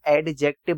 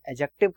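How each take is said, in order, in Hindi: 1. d की आवाज़ साफ़ बोली जाती है। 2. d की आवाज़ साइलेंट है। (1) "इसको एडजेक्टिव मत बोलना" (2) "डी साइलेंट होता है, एडजेक्टिव कहा जाता है"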